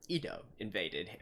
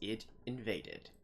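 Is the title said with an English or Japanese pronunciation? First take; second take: Japanese; English. First: The title is said with a Japanese pronunciation. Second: The title is said with an English pronunciation.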